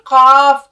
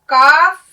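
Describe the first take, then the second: First: The first consonant is a deep q from the throat. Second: The first consonant is a plain k from the mouth. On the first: The speaker calls it right. "थोड़ी हलक से आवाज निकालनी है" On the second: The speaker calls it wrong. "काफ नहीं"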